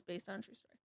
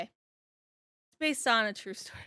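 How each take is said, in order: First: Very soft, trailing-off reading; hushed quote. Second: Drawn-out, dawning quote; slow realization. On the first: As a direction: drop right down to quote the line. Reads out the cover line. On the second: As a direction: stretch it out as it sinks in. Replays own reaction to it. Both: Retold or imitated.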